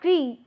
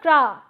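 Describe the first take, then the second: First: The vowel is a single plain 'ee' sound. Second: The vowel is a single plain 'ah' sound. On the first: "it's not cree" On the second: "It's not cra"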